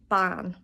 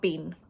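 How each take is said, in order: First: The vowel is an open 'a' sound. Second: The vowel is a long 'ee' sound. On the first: The speaker calls it right. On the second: The speaker calls it wrong.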